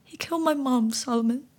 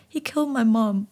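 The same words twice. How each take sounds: First: "my" pushed high and hard, "He killed my mom" wailed; anguished cry, stress on my. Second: Tearful whispered sob of "He killed my mom"; boy sobbing to the frog; crying. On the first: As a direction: break on the word my. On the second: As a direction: choke the words out through tears. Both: Acted. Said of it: "I cried".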